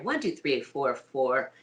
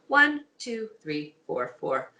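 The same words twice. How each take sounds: First: The voice sits low, vibrating in the chest. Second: The voice sits higher, with less chest resonance.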